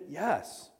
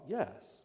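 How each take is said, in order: First: It sounds confident and sure. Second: It sounds sly and deceptive.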